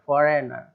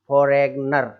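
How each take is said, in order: First: No g sound is pronounced before the n. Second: A g sound is pronounced before the n. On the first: The speaker calls it right. "फॉरेनर इस तरीके से बोलते हैं" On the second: The speaker calls it wrong. "जी नहीं बोलना है वहां पर"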